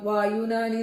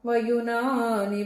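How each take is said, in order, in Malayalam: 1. ആദ്യ സ്വരം ദീർഘമാണ്. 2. ആദ്യ സ്വരം ഹ്രസ്വമാണ്.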